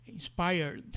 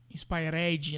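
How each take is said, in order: First: "Inspired" as in-SPY-erd, no vowel after the d; correct -red ending. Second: "inspired" as inspai-RED-ji, with an added final vowel; Brazilian habit error. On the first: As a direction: end "Inspired" on a closed erd. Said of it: "A pronúncia de R e D". ("Inspired" terminando em "erd") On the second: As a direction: say "inspired" ending in a Brazilian "rédji". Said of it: "Um vício do português de falar". ("inspired" com vício do português, "inspairédji") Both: Shown as a demonstration.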